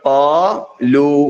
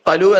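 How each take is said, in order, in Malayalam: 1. ഈ സ്വരങ്ങൾ ദീർഘമായാണ് ഉച്ചരിക്കുന്നത്. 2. ഈ സ്വരങ്ങൾ ഹ്രസ്വമായാണ് ഉച്ചരിക്കുന്നത്. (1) "പറയേണ്ടത് ഖാലൂ" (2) "ഖലു എന്നല്ല പറയേണ്ടത്"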